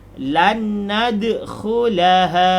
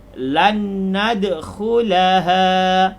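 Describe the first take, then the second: The two takes are said the same way.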